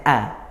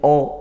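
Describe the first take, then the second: First: The vowel is light and sounds like a. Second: The vowel is heavy and sounds like o. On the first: The speaker calls it right. "harusnya a" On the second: The speaker calls it wrong. "jangan sampai ikut tebal"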